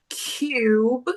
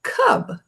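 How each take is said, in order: First: Cube with a long u, like kyoob; teacher contrasting cube with cub; with silent E. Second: Cub with a short, open u; teacher contrasting cub with cube; without silent E. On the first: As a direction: glide into the u of Cube. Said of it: "sem o silent E". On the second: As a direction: keep cub short and clipped. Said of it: "sem o silent E, fica". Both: Shown as a demonstration.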